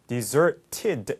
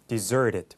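First: The T is pronounced as a hard, clear T. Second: The T is softened to a flap like an L. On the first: The speaker calls it wrong. "deserted 이렇게 되는 게 아니라" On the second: The speaker calls it right. "T 발음이 부드럽게 우리말 리을처럼 하면 돼서"

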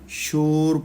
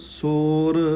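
First: The word begins with an sh sound. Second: The word begins with a plain s sound. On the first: The speaker calls it wrong. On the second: The speaker calls it right.

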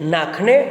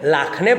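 First: The word begins with an n sound. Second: The word begins with an l sound. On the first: This is the standard pronunciation. "શબ્દની શરૂઆતમાં બોલાતા નનો અલ લ થાય" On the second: This is the Surti dialect pronunciation. "શબ્દની શરૂઆતમાં બોલાતા નનો અલ લ થાય"

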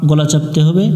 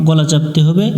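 Both takes have the same delivery.

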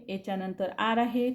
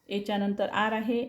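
No difference in how they are said.

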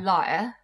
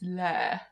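First: It is said in a moderately posh accent. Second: It is said in an extremely posh accent. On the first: "Whereas I would say liar" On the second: "when you get really posh, it's lair"

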